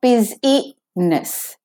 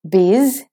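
First: The word is said with three syllables. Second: The word is said with two syllables. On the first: The speaker calls it wrong. "So it's not busy-ness" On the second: The speaker calls it right. "straight from the Z to the N"

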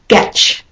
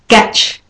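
No difference in how they are said.

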